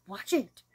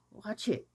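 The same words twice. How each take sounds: First: Said in the usual way. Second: Whispered urging. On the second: Shown as a demonstration. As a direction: repeat it as an unvoiced whisper, watch it.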